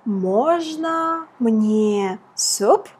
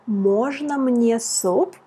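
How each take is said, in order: First: Very slow model phrase. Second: Said in the usual way. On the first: Shown as a demonstration. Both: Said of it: "The first phrase was".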